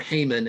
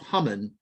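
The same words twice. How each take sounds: First: The name is said the usual American way. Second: The name is said in a non-American way.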